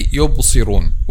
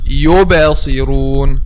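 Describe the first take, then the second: First: The b is closed flat with no echo. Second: The b is released with a bouncing echo. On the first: The speaker calls it wrong. "Some people say يبصرون without making qalqala" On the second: The speaker calls it right. "we should make qalqala and say like this"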